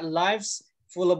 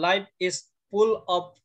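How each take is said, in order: First: The words are linked together into one flow. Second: Each word is said separately, without linking. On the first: The speaker calls it right. "tapi bacanya" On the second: The speaker calls it wrong.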